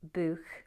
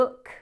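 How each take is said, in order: First: The vowel is a long oo sound. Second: The vowel is short, like in 'look'.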